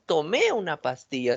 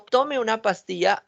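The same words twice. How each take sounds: First: "tomé" con el golpe en la é final; acento en tomé. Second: "tome" con fuerza en la o; acento en tome. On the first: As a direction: apoya la é de "tomé". ("tomé" acentuado al final) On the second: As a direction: marca la primera sílaba de "tome". ("tome" acentuado en la o) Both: Shown as a demonstration. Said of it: "tiene su acentuación".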